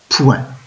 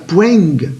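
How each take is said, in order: First: The word ends with no g sound. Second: A g sound is heard at the end. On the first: The speaker calls it right. "Non, je dis point" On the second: The speaker calls it wrong. "Je ne vais pas dire poing ou poinge"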